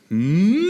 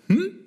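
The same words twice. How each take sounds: First: The hum is drawn out long. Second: The hum is short. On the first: The child wants it very much. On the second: The child wants something.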